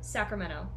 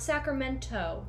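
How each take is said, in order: First: The T in the middle is left silent. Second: The T in the middle is clearly pronounced. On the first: The speaker calls it right. "If you're from California, you don't say the T" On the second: The speaker calls it wrong. "not Sacramento"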